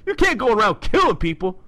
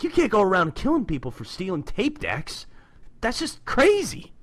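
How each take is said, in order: First: Loud, higher New Yorker Raph impression; nineties film Raph. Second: Lightly voiced comic-book Raph, a bit higher; Raph quoted. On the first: Doing nineties movie Raph for the co-host, loud New York impression. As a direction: belt it out like the movie Turtle. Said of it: "I'll do the, the nineties film rap". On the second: Retelling Raph's scolding of Casey, lightly voiced reproach. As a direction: read the Turtle's line with mild reproach. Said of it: "and he's like".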